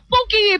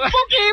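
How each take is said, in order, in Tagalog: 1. Sinabi ito sa kalmado at karaniwang boses. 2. Sinabi ito sa napakagalit na boses.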